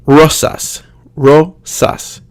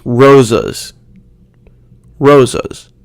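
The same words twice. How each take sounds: First: Rosas as ROH-sahs, each syllable forced; clear Spanish vowels. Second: Rosas with s as z and a lazy uh; Americanized pronunciation. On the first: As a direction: say rosas with crisp s and full a. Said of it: "needs to be much more clear". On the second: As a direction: say rosas as ROH-zuhz. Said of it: "a sound kinda like uh". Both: Shown as a demonstration.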